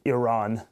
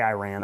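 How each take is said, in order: First: The word is said a non-American way. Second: The word is said the plain American way. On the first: Some other people say it this way. "I don't say Iran, as some people do" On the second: This is the speaker's own American way. "I say Iran"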